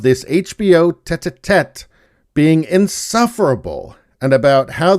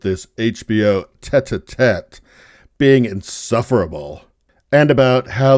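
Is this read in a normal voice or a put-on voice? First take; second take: normal; put-on. First: It is read in a plain, normal voice. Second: It is read in an exaggerated put-on voice.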